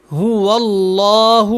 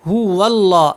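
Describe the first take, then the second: First: هو اللہ with clear ہ, not او, slow. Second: هو اللہ joined into واللہ, و flowing into اللہ; joined wallah. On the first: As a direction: start هو with a real ہ. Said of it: "یہاں پہ ہا کو پڑھنا ہے". (ہا واضح، او نہیں) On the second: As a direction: merge هو into اللہ. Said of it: "واللہ پڑھنا ہے". (واو کو اللہ سے ملا کر) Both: Shown as a demonstration.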